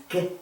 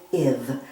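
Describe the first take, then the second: First: "give" split as g, then iv; segmented phonics "give": g-iv; sounded out. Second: Said in the usual way. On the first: Shown as a demonstration. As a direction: break "give" after the g to show the short i. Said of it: "it's an I word". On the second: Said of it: "The word is give".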